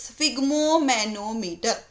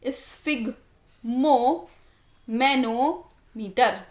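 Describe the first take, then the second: First: The word is said smoothly without any pause. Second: The word is split into two parts with a pause.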